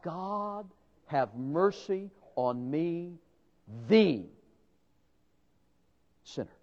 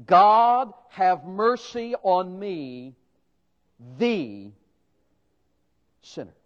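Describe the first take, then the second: First: Softer, slow plea for mercy, fading to almost nothing on "sinner"; a broken man whispering to God; hushed contrite plea. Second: The sinner, with the drawn out and weighted; slow pleading prayer stressing "the". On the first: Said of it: "and cried out". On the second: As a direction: lean on "the" before "sinner", slow and contrite. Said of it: "it's the definite article". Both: Acted.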